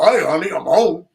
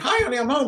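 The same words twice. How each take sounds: First: It is said in a big, deep voice. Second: It is said in a small English voice.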